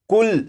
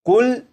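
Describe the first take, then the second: No difference in how they are said.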